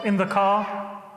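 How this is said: It is said in a British accent. "a British accent, which will say"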